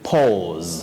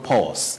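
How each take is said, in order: First: The final consonant is a buzzing z sound. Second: The final consonant is a hissing s sound. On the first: The speaker calls it right. "taking what we call the voiced sound Z. ... You say pause" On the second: The speaker calls it wrong. "The unvoiced or voiceless sound S should not be used. ... not pause"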